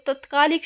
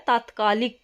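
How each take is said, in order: First: तत्कालिक said "tatkaalik"; wrong short vowel. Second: तात्कालिक said "taatkaalik"; correct long vowel. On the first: Teacher rejecting the wrong word, short "tat" in तत्कालिक. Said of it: "शब्द नहीं होता". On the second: Teacher giving the correct word, long "taat" in तात्कालिक. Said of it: "जो हमारा शुद्ध शब्द है". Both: Shown as a demonstration.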